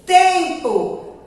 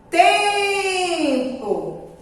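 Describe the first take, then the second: First: Said in the usual way. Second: "Tempo" with a long, high TEM; drawn-out stressed syllable. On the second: Shown as a demonstration. Teacher showing children where she lingers, drawn out. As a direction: hold the first syllable of "Tempo": teeempo. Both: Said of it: "Tia demorou mais no tem".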